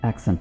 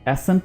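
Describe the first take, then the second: First: It is said with a k sound: 'aksent'. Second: It is said without a k sound: 'assent'. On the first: The speaker calls it right. "एक्सेंट बोलना है" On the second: The speaker calls it wrong. "एसेंट नहीं"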